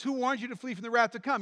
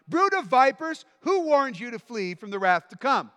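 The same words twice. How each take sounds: First: Said in the usual way. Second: Shouting prophet. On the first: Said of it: "He says". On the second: Acted. Preacher voicing John the Baptist.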